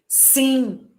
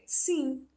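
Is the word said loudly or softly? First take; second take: loudly; softly. First: The word is said loudly and strongly. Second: The word is said softly and weakly. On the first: "bem forte" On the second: "bem fraco"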